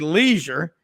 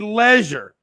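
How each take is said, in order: First: It is said with an American pronunciation. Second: It is said with a British pronunciation. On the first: "the Americans say leisure" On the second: "and they say leisure"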